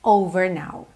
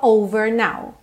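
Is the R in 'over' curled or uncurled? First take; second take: curled; curled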